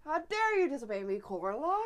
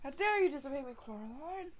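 First: Plain retelling of the meme line; meme quote. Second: Meme quote. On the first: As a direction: quote it lightly. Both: Retold or imitated. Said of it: "I fucking love that meme".

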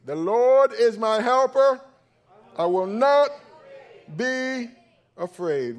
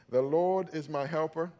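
First: The Lord is my helper, loud, high and slow; a pastor showing the congregation how to declare it, loud; said like you mean it. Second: Said in the usual way. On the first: Shown as a demonstration. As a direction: proclaim it with full conviction. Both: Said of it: "say it like they mean it".

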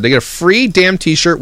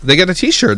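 First: Free stressed, said slowly. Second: Said in the usual way. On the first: Real, not acted. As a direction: lean on free and slow down.

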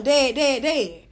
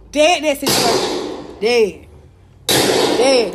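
First: Said in the usual way. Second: DEAD punched loud, falling hard each time; repeated loud Dead, dropping in pitch; emphatic dead. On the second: Real, not acted. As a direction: hammer the word Dead, louder and falling. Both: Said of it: "That's all I'm doing".

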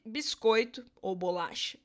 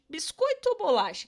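First: Said in the usual way. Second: 'Biscoito ou bolacha?' asked higher and louder; teasing the class with the old debate; playful question to the class. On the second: Shown as a demonstration. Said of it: "O que que vocês acham".

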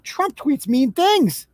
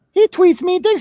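First: Slow, drawn-out sarcastic complaint; mock outrage. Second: Higher, louder mock shock; sarcastic mock alarm. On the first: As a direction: stretch it out like a whiny scold. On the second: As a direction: fake gasp of outrage. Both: Mocking Biden voters' complaints.

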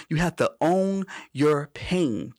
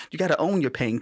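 First: "own your pain" drawn out slowly with weight on "own"; slow emphatic. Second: Said in the usual way. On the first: Shown as a demonstration. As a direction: press "own" hard and slow the whole phrase down. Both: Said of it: "Ca-, catch that".

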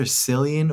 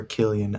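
First: Cillian said as SIL-ee-an; soft-C pronunciation. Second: Killian said as KIL-ee-an; hard-K pronunciation. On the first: Co-host weighs two versions, Cillian with soft C. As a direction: open Cillian on an S sound. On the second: Co-host weighs two versions, Killian with hard K. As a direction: open Killian on a K sound. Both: Shown as a demonstration. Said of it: "I think it's either".

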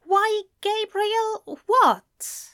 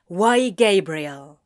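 First: High, slow, puzzled query; careful, drawn-out confusion; puzzled friend. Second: Slow, loud, tense question; tense confrontation. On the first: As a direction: echo him in a much higher voice, baffled. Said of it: "tilting his head slightly". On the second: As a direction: challenge him, heavy and drawn out. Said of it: "wound tense like a snake". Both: A narrator's reading.

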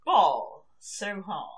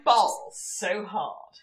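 First: Slow posh try at street slang, said cleanly; careful posh delivery of street slang; clean slang take. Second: Slow, stiff posh try at street slang; bad slang attempt. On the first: Pretend. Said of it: "One more time. Give me a good, good, super clean take". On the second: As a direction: say it slowly like a posh girl faking street talk. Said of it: "Can you just say it for me one more time".

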